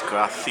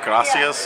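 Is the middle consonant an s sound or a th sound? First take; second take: th sound; s sound. First: The consonant is pronounced as a lisped th sound. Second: The consonant is pronounced as a plain s sound. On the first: "They put a TH in front of everything" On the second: "instead of gracias"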